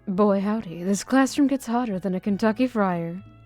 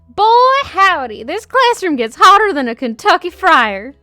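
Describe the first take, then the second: First: It is said in a plain voice. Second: It is said in an obnoxious voice.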